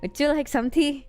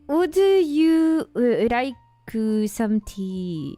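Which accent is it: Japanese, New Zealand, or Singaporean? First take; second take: Singaporean; Japanese. First: It is said in a Singaporean accent. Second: It is said in a Japanese accent.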